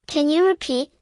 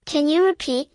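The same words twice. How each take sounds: The two takes are said the same way.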